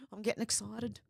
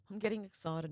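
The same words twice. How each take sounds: First: Gasp, then let the thrill slip out under your breath; excited. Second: Said in the usual way. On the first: Real, not acted. Reacting to eight days till the election, softly thrilled.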